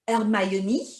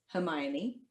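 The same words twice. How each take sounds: First: "Hermione" said French, no H, er-my-oh-nee; "Hermione" as a French name; French pronunciation. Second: Said in the usual way. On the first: Shown as a demonstration. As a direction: drop the H of "Hermione" and lift the ending. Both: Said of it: "I could also be Ron".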